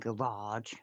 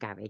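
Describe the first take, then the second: First: It is said with an American pronunciation. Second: It is said with a British pronunciation. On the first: "I did it the American way" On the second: "not garage"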